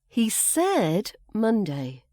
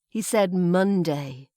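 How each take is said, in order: First: The word said carries the stress. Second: The word Monday carries the stress. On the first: He stated it outright rather than implying it. "he didn't just imply it, he said it" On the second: It was Monday, not another day. "it's the day of the week that's emphasized"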